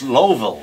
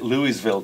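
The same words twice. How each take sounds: First: The name is swallowed into about two syllables. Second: Every syllable of the name is said fully. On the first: The speaker calls it right. "It's Louisville. ... two syllables or so. You kind of swallow it" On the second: The speaker calls it wrong. "I pronounced it Louisville"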